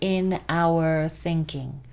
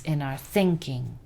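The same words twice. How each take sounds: First: The words 'in our' are said in full form. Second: The words 'in our' are weak and reduced. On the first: The speaker calls it wrong. "That in our is not" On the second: The speaker calls it right. "It's in our thinking"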